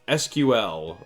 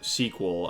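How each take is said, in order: First: It is spelled out as three separate letters. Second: It is said as one word, like sequel.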